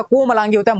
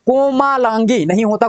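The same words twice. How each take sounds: First: कोमलांगी with a short a after म, the right form; correct short vowel. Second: कोमालांगी with a long aa after म, read out slowly as the wrong form; wrong long vowel. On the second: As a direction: say कोमालांगी stretching the ला, marking it as an error. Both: Shown as a demonstration.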